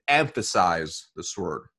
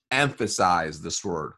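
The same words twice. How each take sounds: First: "emphasize" stressed, at an ordinary pace. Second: "Emphasize" drawn out slowly and lower; slow emphasis. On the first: Coach telling a brand new rep what to stress, emphatic "emphasize". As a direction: lean on "emphasize" as an instruction. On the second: Coach repeating the instruction to a new rep, slow, low "Emphasize". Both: Acted. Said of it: "I want you to emphasize this word".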